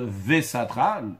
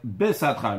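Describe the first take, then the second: First: The word begins with a v sound. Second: The word begins with a b sound. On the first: The speaker calls it wrong. "un vet à la place d'un bet" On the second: The speaker calls it right. "dans le schéma, il y a écrit"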